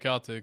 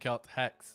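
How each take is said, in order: First: The name is blended together like 'Celtics'. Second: The name is split into 'Celt' and 'Hex'. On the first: The speaker calls it wrong. "am I saying it incorrectly when I say Celtics?" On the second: The speaker calls it right. "I should be saying Celt Hex"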